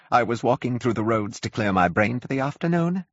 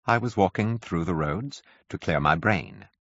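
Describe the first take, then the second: First: High, plaintive recollection; complaining curate. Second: Dazed curate. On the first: Curate recalls his morning, high and plaintive. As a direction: remember it with a whine. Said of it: "spoke in almost a complaining tone". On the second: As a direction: say it numbly, half to himself. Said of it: "he said". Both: A narrator's reading.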